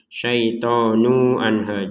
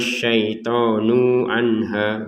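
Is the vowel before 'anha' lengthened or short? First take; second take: short; lengthened. First: The vowel before anha is short, joined directly. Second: The vowel before anha is drawn out long. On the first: The speaker calls it right. "jangan di sini ada panjang" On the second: The speaker calls it wrong. "Jangan dibacanya"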